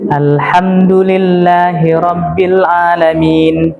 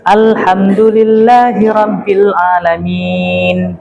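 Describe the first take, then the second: First: The final long vowel is held briefly. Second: The final long vowel is held longer. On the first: "Dua harokat" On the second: "Empat harokat. Ini adalah tawassut"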